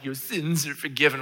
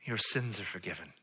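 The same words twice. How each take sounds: First: Affected, pompous pronouncement; hammed-up pious proclamation; mock reverent reading. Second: Soft, low pronouncement; hushed, sincere absolution; solemn pardon. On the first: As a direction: intone it grandly, as a parody. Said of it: "we always read this and we're like". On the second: Acted. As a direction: state it quietly and simply. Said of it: "this is what Jesus says to him".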